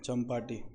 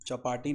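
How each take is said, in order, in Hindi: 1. इसमें p से पहले m की आवाज़ है। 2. इसमें p से पहले m की आवाज़ नहीं है।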